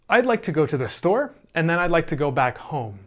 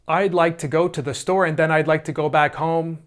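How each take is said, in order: First: The words are grouped into natural phrases. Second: The words are grouped with awkward, unnatural breaks. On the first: The speaker calls it right. "let's say" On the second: The speaker calls it wrong. "I wouldn't say... That would be kind of crazy"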